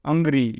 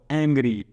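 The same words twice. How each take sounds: First: અંગ્રી with a plain short a, the wrong way; અંગ્રી said as the mistake, a sound not e; wrong reading. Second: એંગ્રી starting on a clear e sound; એંગ્રી read the correct way, e first; right reading. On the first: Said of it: "નહીં તો". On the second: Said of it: "આને એ જ વંચાય". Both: Shown as a demonstration.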